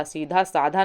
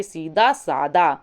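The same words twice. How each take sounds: First: साधा with aspirated dh, "seedhaa saadhaa"; wrong form. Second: सादा with plain d, "saadaa"; no breath on the d of सादा; correct form. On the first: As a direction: breathe out on the dh of साधा. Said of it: "सीधा साधा नहीं होता". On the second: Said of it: "बल्कि सीधा सादा". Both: Shown as a demonstration.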